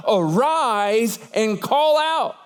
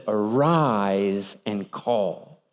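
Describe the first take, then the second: First: Each word slow and deliberate; slow solemn command. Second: Much lower and softer, very slow; low slow echo. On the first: Preacher quoting God's command to Jonah, slow and solemn. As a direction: lay out God's command slowly. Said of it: "What was the command of God?". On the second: Sea captain echoing God's command, low and slow. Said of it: "What does the captain say?". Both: Acted.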